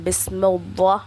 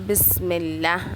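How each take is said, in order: First: The L sound is heavy and full. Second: The L sound is light and thin. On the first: The speaker calls it wrong. "வல்லினமா ... பண்ணக்கூடாது" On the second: The speaker calls it right. "மெல்லினமாக சொல்லணும்"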